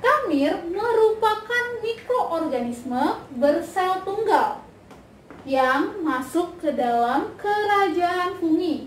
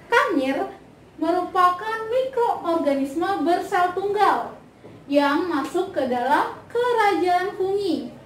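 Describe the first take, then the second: Both takes have the same delivery.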